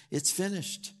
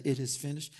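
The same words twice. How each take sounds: First: It's finished raised and stressed; restated with emphasis. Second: Said in the usual way. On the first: Shown as a demonstration. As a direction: lift the word finished in emphasis.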